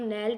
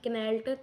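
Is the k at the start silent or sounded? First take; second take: silent; sounded. First: The word starts with an n sound. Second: The word starts with a k sound. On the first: The speaker calls it right. "हम नेल्ट बोल रहे हैं" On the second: The speaker calls it wrong. "ना कि कनेल्ट"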